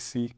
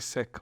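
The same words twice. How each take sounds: First: The word sounds like 'seek'. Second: The word does not sound like 'seek'. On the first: "we say Sikh" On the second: "we don't say Sikh"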